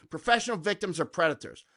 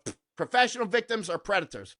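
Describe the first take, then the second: First: Said in the usual way. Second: Scoff, then state it flatly; a curt dismissive retort; dismissive comeback. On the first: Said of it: "Just throw that grenade every time". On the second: Shown as a demonstration. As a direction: brush it off with a scoff. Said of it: "just go".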